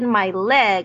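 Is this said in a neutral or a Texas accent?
neutral. It is said in a plain, neutral accent.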